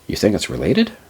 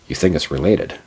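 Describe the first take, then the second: First: It ends rising, like a question. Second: It ends falling, like a statement.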